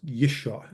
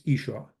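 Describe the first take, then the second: First: "Yisha" begun with a Y glide; initial Y sound. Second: "Isha" begun straight on an EE vowel; initial vowel, no Y. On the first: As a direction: say "Yisha" as YISH-ah, with a Y. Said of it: "it's Isha". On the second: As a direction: say "Isha" as EE-shah, without a Y. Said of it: "it's Yisha". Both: Shown as a demonstration.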